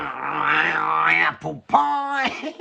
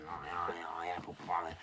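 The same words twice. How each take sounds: First: "apple pie" drawn out slowly, much higher and louder; a hammed-up, sing-song cry of "apple pie"; a slow, high, theatrical exclaim; mock exclamation. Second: "apple pie" said low and soft, thrown away; a quiet, lower echo of "apple pie"; muttered repeat. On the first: A jokey exclamation when he realises. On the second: Acted. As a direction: mumble the catchphrase to yourself. The catchphrase repeated under his breath.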